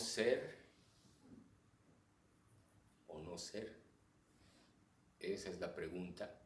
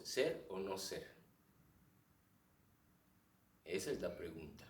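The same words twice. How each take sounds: First: Long pause after "ser", then softer, lower "o no ser"; pausas ampliadas. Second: "ser o no ser" run together, long pause before "Esa es la pregunta"; pausa en otro lado. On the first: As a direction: stretch the silences after "ser" and before "esa es la pregunta". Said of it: "ampliar algunas pausas entre palabras". (pausa larga tras «ser» y otra antes de «esa es la pregunta») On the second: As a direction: hold one big silence after "no ser". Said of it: "hace una pausa en un lado es otro". («ser o no ser» seguido, pausa larga antes de «Esa es la pregunta»)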